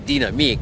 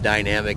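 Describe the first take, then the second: First: It is said with a European, French-like pronunciation. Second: It is said with a plain American English pronunciation. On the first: "in Europe they say dynamique" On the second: "we Americans like to call it just dynamic"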